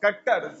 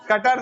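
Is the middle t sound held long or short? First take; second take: long; short. First: The middle t sound is held long, doubled. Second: The middle t sound is short and single. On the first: The speaker calls it right. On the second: The speaker calls it wrong. "कटर नहीं"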